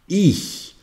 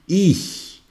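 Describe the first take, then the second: First: The ch sounds like a soft hiss. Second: The same.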